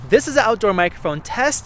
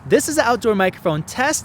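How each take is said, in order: First: The voice sounds thin and tinny, lacking body. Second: The voice sounds fuller, with slightly sharper sibilance. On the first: The speaker calls it wrong. "with my cheap twenty dollar shotgun mic" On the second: The speaker calls it right. "with the Audio Technica shotgun microphone"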